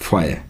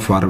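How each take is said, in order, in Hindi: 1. अंतिम r की ध्वनि छोड़ी जाती है। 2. अंतिम r की ध्वनि उच्चारित होती है। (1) "ए आर नहीं बोला जाएगा, ए बोला जाएगा" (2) "यानी कि मैं गलत प्रोनाउंस कर रहा हूँ"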